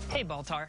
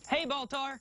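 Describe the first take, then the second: First: It is said quietly and intimately, close by. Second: It is called out loudly and enthusiastically.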